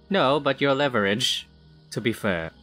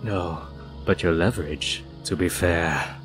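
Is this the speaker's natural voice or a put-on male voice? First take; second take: natural; put-on male. First: It is said in the speaker's natural voice. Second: It is said in a put-on male character voice.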